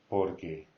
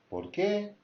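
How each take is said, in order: First: The pitch does not rise at the end. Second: The pitch rises at the end.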